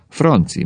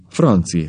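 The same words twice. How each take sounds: First: Mildly troubled, higher-pitched call; concerned wife, falling tone; worried. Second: Understated, helpless appeal; dejected wife, falling tone; despairing sigh. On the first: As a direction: address him with understated concern. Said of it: "mondta gondterhelten". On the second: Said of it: "sóhajtott Rubnerné kétségbe esetten". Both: A narrator's reading.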